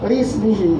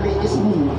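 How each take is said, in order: First: The words run together with no glottal stop. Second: A glottal stop separates li from ismihi. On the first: The speaker calls it right. "Lismihi, jangan li ismihi" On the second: The speaker calls it wrong. "jangan li ismihi"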